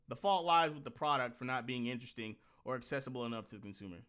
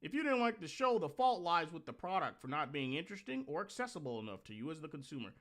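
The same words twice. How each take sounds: First: Said in the usual way. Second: Mocking stuffy phrasing. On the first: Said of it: "Well, no one fucking talks like this". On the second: Reading the article aloud to mock it, in a prissy sing-song. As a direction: parody how nobody really talks. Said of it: "No one fucking talks like this".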